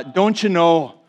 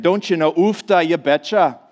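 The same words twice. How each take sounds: First: A Minnesota "Don't you know?" with rounded vowels and a falling end; a light mock Minnesota "Don't you know?"; Minnesota accent. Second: Lightly put-on Minnesota "Don't you know? Ufta, you betcha"; Minnesota accent. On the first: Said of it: "people say things like". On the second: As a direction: play up the folksy Minnesota lilt on "Ufta". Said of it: "That's how they talk up there".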